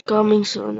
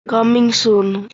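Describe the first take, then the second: First: Said in the usual way. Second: Slow drawl. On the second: Real, not acted. Reads sign slowly, then repeats.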